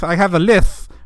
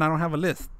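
First: I have a lisp with lisp as lith, tongue through the teeth; mock lisp. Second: Said in the usual way. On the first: Shown as a demonstration. Joking to chat that the filter hides his lisp, lisping lisp as lith. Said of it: "if I remove my filter". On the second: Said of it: "put this back on".

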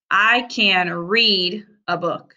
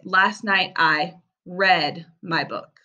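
First: "read" said as "reed", the present tense, slowly. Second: "read" said as "red", the past tense, slowly. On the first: Teacher to pupils: "read" as "reed". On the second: Teacher to pupils: "read" as "red". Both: Shown as a demonstration. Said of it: "we can say this word in two ways".

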